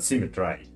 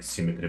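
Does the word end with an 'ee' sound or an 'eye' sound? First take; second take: eye; ee. First: The last syllable ends with an 'eye' sound. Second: The last syllable ends with an 'ee' sound. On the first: The speaker calls it right. "but symmetry, for uh, re- rhyme with I" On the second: The speaker calls it wrong. "not like symmetry"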